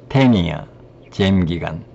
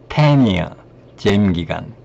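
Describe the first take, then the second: Both takes have the same delivery.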